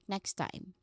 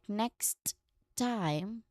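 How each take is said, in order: First: The two T sounds merge into one smooth T. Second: Both T sounds are fully and sharply released. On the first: "blends into a single smooth transition" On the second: "making two sharp T sounds"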